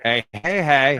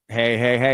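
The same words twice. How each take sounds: First: The second hey carries the stress. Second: The second hey is not stressed.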